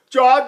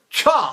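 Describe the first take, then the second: First: The 'ch' comes out with a gentle puff. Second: The 'ch' bursts out with a strong puff. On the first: The speaker calls it right. "I learned not to move the paper" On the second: The speaker calls it wrong. "it looked like I was sneezing"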